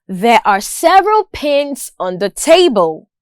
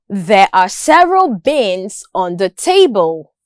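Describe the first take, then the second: First: Pins begun with a clear puffed P; P sound. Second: Bins begun with a voiced B; B sound. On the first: Listening practice for learners, crisp P in pins. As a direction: make the P in pins distinct from B. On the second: Listening practice for learners, clear B in bins. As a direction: make the B in bins distinct from P. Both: Shown as a demonstration. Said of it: "listening practice with respect to the consonant sounds".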